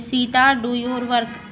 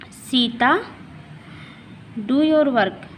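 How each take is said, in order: First: It is said in one go without pausing. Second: There is a short pause after the name. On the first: The speaker calls it wrong. "पूरा एक ही में बोल देंगे तो इस तरह से नहीं" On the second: The speaker calls it right. "यहाँ पर रुकना है इसलिए कॉमा का प्रयोग हुआ है।"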